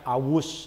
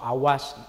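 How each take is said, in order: First: The vowel after the w is u. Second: The vowel after the w is a. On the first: "Jangan awus" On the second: "atau awas"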